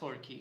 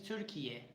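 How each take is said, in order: First: The name is said in the English form. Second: The name is said in the Turkish form. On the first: The speaker calls it wrong. "It is not Turkey" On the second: The speaker calls it right. "This is the original one"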